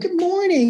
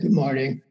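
First: It is said with high, lively energy. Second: It is said with low, tired energy.

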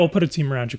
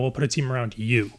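First: The word 'you' gets no special emphasis. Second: The word 'you' is strongly emphasized. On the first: A supporting team will simply be provided. "it wasn't just like, yeah" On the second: The listener will be the centerpiece of the team. "put emphasis on that word"

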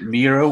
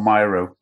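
First: The first vowel sounds like 'ee'. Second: The first vowel sounds like 'eye'. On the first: "with like three E's" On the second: "or three Y's"

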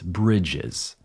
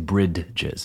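First: The D sound is left out. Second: The D sound is clearly pronounced. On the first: The speaker calls it right. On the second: The speaker calls it wrong.

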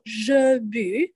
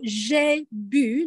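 First: The first word has a neutral 'uh' vowel. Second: The first word has a closed 'ay' vowel. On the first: The speaker calls it wrong. "not je bu" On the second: The speaker calls it right. "so j'ai bu"

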